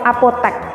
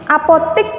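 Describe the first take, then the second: First: The last syllable has an 'e' vowel. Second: The last syllable has an 'i' vowel. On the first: This is the standard form. The speaker calls it right. "Yang benar adalah apotek" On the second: This is the nonstandard form. The speaker calls it wrong. "Apotik pakai i. Itu bentuk tidak baku"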